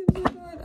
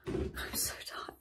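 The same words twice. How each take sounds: First: Loud, higher mock-whining complaint; loud whine. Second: Breathy whispered complaint, slow. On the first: Vlogger building up to a loud tired whine. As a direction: belt out the tiredness. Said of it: "same phrase, last loud take". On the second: Vlogger whispering to camera that she is tired. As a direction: barely breathe out how tired you are. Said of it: "repeated tired phrase, whispered". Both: Shown as a demonstration.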